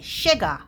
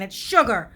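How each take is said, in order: First: The word is pronounced in an imitated, nonstandard way. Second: The word is pronounced in the usual standard way. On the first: This is how someone else says it. The speaker calls it wrong. "as my mother would say" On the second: This is the correct pronunciation. The speaker calls it right. "What are you saying?"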